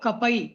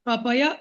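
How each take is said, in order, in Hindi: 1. अंतिम y आधा बोला जाता है, बिना स्वर के। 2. अंतिम y पूरे स्वर के साथ बोला जाता है। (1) "य आधा है" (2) "कपय नहीं बोलो"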